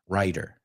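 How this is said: The middle consonant sounds like a quick D. "Americans say writer. You notice it's a D sound"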